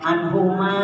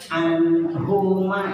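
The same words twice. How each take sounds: First: The n sound is cut short, half a beat. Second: The n sound is held fully and clearly. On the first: The speaker calls it wrong. "Nah, loncat ya, hanya setengah ketukan" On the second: The speaker calls it right. "harus disempurnakan nun bunyi bunyi nunnya"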